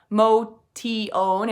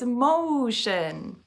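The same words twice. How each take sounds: First: The middle consonant is not a sh sound. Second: The middle consonant is a sh sound. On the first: The speaker calls it wrong. "It's not motion" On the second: The speaker calls it right. "It's motion. The T I in motion makes a sh sound"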